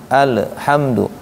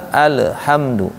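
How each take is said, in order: No difference in how they are said.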